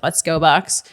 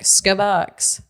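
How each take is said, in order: First: Each word is said separately and fully. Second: The words are squeezed together into one word. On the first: "a lot of the time shorthand it's like" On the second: "which has gotten shortened into like"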